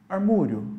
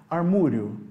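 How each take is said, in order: First: The middle vowel is an 'oo' sound. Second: The same.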